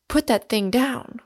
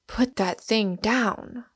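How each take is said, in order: First: A startled, raised order with a higher pitch; alarmed cry. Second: A slow, drawn-out mock shout, barely raised; each word spaced, a lightly voiced command. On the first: Acted. Warden to Smith holding a revolver, alarmed raised order. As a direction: stop him before he fires. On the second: Warden to Smith again, slow understated shout at the gun. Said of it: "shouted the warden".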